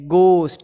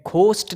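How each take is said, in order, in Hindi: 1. यह शब्द सादे g ध्वनि से शुरू होता है। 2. यह शब्द सादे g से शुरू नहीं होता। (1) "ग, ... ये है गोस्ट" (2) "घोस्ट नहीं है"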